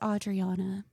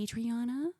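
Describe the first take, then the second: First: The name begins like 'Audrey' and ends like 'Anna'. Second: The name does not begin like 'Audrey'. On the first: The speaker calls it right. "It's Adriana" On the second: The speaker calls it wrong. "People call me Adriana"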